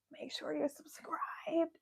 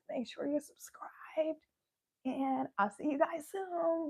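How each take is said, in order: First: Whispering. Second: Hushed whisper to the viewers. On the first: Outro call to subscribe. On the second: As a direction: whisper the subscribe line. Repeats the outro. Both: Real, not acted.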